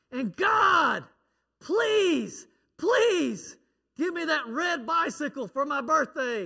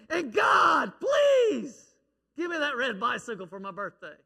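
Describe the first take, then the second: First: Put-on shouted, much higher child's plea; boy screaming his prayer. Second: Put-on shouted, much higher begging child; boy screaming again. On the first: Little boy screaming his bedtime prayer at God. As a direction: yell it up to heaven like a kid. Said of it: "You don't have to scream". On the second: Little boy yelling his birthday wish at God again. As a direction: scream the prayer even harder. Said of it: "he said it again".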